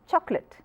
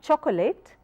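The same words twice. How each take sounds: First: It is said with two syllables. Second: It is said with three syllables. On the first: The speaker calls it right. "two syllabic words" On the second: The speaker calls it wrong.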